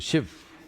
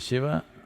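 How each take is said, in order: First: The final syllable is dropped, North Indian style. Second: The final syllable is kept.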